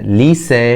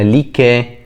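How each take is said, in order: First: The middle consonant is an s sound. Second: The middle consonant is a k sound. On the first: The speaker calls it right. "يبقى ليسا" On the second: The speaker calls it wrong. "ما ينفعش اقولها ليكا"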